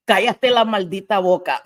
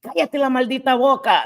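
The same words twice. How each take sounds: First: Hint of a friend's sass; quoting her friend telling chat to shut up, lightly sassy; quoting a friend in Spanish. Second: Higher, punchier Spanish retort, lightly acted; quoting her friend again for chat, higher and punchier; high sassy quote. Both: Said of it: "That's what you say".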